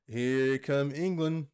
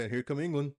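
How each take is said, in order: First: Put-on slow, drawn-out try at a British commentator accent; attempted British accent. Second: Said in the usual way. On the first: Calling England's attack in a halting British commentator accent. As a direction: stretch it out in a shaky British accent. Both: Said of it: "I can't do the accent".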